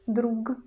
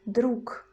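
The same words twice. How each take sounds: First: The word ends with a voiced G sound. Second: The word ends with a voiceless K sound. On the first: The speaker calls it wrong. "we don't pronounce G, we don't say друг" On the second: The speaker calls it right. "we use voiceless pair K"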